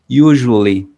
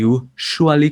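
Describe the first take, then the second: First: The middle consonant is a soft, voiced French 'j'. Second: The middle consonant is a voiceless 'sh' sound. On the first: The speaker calls it right. "como una y del francés. J, ... Es una y muy suave que vibra" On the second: The speaker calls it wrong. "ni usually con sh, con el sonido de show"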